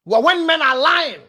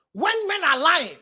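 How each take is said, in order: First: Said in the usual way. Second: Slowed, softer restatement, landing on "when"; slower repeat. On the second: Shown as a demonstration. Preacher to women, repeating for weight, slower and softer. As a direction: repeat it slowly and quieter, leaning on "when".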